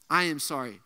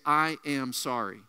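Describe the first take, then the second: First: Said in the usual way. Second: Slow solemn sorry. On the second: Shown as a demonstration.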